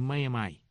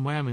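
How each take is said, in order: First: "Miami" as mah-yah-MY; local pronunciation. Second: "Miami" as mah-YAH-mee; rejected pronunciation. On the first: Host corrects after the roadside mix-up, "Miami" as mah-yah-MY. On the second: Host retells the roadside mix-up, "Miami" as mah-YAH-mee. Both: Shown as a demonstration. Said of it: "es que no es Miami".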